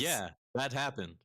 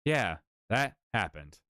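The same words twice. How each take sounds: First: A try at a robot voice. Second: Slow, lower robot voice; booming metallic robot read. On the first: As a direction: stiff mock robot voice. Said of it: "I'm trying to do the, the robot voice for you". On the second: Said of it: "the robot voice for you". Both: Shown as a demonstration.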